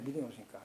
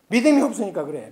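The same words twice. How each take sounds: First: "믿음이 없으니까" repeated much softer; softly echoed "믿음이 없으니까"; quiet echo. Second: Said in the usual way. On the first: Shown as a demonstration. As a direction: drop to a low murmur on "믿음이 없으니까".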